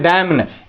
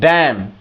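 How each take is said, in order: First: An extra n syllable follows the m. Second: The word ends on the m sound. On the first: The speaker calls it wrong. "डैम ने लोग बोलते हैं" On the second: The speaker calls it right. "Silent है ये"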